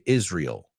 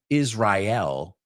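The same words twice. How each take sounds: First: Some syllables of the word run together. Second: Every syllable of the word is fully pronounced. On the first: The speaker calls it right. "We don't pronounce every syllable" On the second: The speaker calls it wrong. "we don't say Israel"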